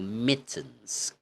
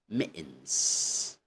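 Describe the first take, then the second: First: The middle T is clearly pronounced. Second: The middle T becomes a glottal stop. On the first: "in British or in Queen's English" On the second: "In Cockney, it's going to be"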